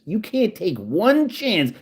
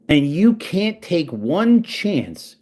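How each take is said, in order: First: "one" hit hard and high in "You can't take one chance", said slowly; stress on one. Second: "you can't take one chance" very slow, each word spaced and punched, stress on "you"; slow emphatic taunt. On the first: Taunting troll [name], stress on "one". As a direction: lean on the word "one". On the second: Taunting troll [name], very slow and stressed on "you". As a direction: drag it out to rub it in. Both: Real, not acted.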